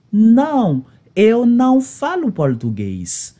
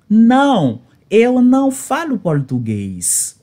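The two takes are said the same way.

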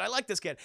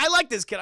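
First: Said in the usual way. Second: Excited burst. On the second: Real, not acted. Streamer cheering Itadori, a loud delighted burst. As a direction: blurt it out delighted. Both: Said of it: "I was like".

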